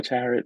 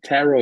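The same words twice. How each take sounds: First: "Tarot" with the final T sounded; alternative Tarot pronunciation. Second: "Tarot" ending in an open oh; Tarot pronunciation. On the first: Unsure of the event's name, trying "Tarot" as TARR-ut. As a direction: say "Tarot" ending in a short -ut. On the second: Unsure of the event's name, trying "Tarot" as TARR-oh. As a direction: say "Tarot" with a silent final T. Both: Shown as a demonstration. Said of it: "I don't know how it's pronounced".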